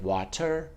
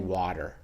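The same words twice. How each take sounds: First: The middle consonant is a crisp, clear T. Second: The middle consonant is a soft D-like flap. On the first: This is the British way of saying it. "Where the British say it water" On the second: This is the American way of saying it. "we say water"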